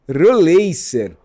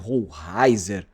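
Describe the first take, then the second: First: The s in the name sounds like s. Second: The s in the name sounds like z. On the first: The player's home country says the name this way. "com S com som de dois S" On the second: Many people say the name this way. "vi muita gente falando Rollreiser"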